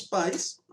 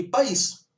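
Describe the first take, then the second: First: "pais" said as a single syllable, the "i" gliding off the "a"; slow, careful "pais" in one beat. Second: "país" in two syllables, pa-ÍS, the í stressed and lifted high. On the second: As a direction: rise sharply on the "ís" of "país". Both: Shown as a demonstration. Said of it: "pegar as palavras pais e país".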